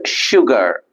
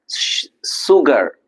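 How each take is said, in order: First: The word begins with an sh sound. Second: The word begins with a plain s sound. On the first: The speaker calls it right. "It's sugar. So the sound is sh" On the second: The speaker calls it wrong. "We don't pronounce as"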